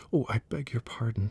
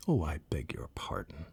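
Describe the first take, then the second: First: Higher, alarmed apology; mild cried apology; cry of apology. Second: A touch of hurried apology; mild hasty sorry, narrated lightly. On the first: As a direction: cry out sorry as she sees it bristle. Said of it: "cried Alice again". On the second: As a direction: blurt out the sorry a little quickly. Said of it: "cried Alice hastily". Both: A narrator's reading.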